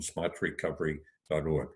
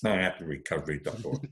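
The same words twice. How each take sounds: First: It is said in a standard accent, r pronounced. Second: It is said in a Massachusetts accent, r dropped.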